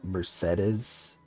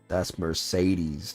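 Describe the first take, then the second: First: The name sounds different from the car brand. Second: The name sounds like the car brand. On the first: This is the character's official name pronunciation. The speaker calls it wrong. "Apparently her name is pronounced Mercedes" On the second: This is how the car is named. The speaker calls it right. "The car brand?"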